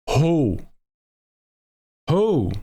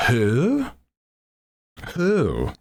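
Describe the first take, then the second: First: High owl hoot, dropping at the end; East Coast owl. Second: High, swooping owl hoot; West Coast owl. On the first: Retold or imitated. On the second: Acted. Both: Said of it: "my impression of an owl".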